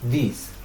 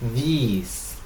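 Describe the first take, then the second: First: The vowel is short and clipped. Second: The vowel is long and drawn out. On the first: "utilizamos una I recortada que es una I cortica" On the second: "la otra es una I prolongada"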